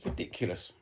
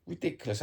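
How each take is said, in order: First: Voiceless, disgusted mutter; disgusted whisper. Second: Indignant outburst. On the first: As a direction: breathe it out in a whisper. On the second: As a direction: pitch jumps up in outrage. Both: Real, not acted. Disgust at the handball decision.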